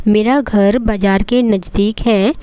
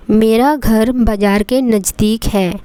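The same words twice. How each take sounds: The two takes are said the same way.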